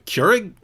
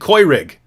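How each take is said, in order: First: The first vowel is said English-style. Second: The first vowel is said German-style. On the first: "you mean a, a Keurig?" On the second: "Don't you know what the sound that makes in German"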